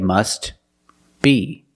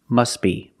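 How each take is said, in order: First: The words are separated and the T is pronounced. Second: The words are linked and the T is silent. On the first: "If you separate the words and you pause between words, then you could say must be" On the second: "if you link the words, you pronounce it must be"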